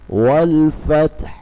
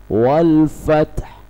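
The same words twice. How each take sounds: Both takes have the same delivery.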